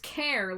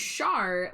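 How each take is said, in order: First: It starts with a k sound, like care. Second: It starts with a sh sound, like shar. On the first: "Care like character" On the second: "Char like Charlotte"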